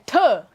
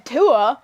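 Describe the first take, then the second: First: Tuh as one spat syllable; emphatic Tuh. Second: Tua drawn out as two syllables; wrong Tua. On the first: Podcaster shows the correct way, spat Tuh. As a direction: say Tuh short, putting your back into it. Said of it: "you're saying Tuh". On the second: Podcaster shows the wrong way, two-syllable Tua. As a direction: say Tua softened into too-uh, without the spit. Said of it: "you're not saying Tua". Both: Shown as a demonstration.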